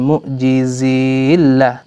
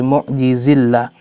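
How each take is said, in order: First: The i before llah is held long. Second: The i before llah is kept short. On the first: The speaker calls it wrong. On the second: The speaker calls it right.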